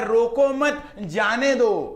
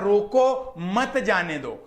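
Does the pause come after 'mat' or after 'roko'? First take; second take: after mat; after roko. First: The pause comes right after 'mat'. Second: The pause comes right after 'roko'. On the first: Don't stop the children; let them leave. "उनको लगा" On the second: Stop the children and don't let them leave. "मुझे बोलना था"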